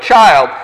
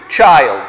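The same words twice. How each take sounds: First: Said in the usual way. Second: Put-on a lightly tender, lower "Child". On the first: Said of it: "The Greek is not son". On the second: A narrator's reading. Father calls his son close, tenderly. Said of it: "says tenderly".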